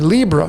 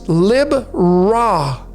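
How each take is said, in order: First: The final syllable is blended and not separate. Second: The final syllable is a distinct, separate 'Ra'. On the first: The speaker calls it wrong. "I used to pronounce it this way" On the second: The speaker calls it right. "but it's Lib-Ra. There's Ra right there"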